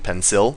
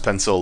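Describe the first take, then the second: First: The second vowel is a full, unreduced vowel. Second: The second vowel is a reduced schwa.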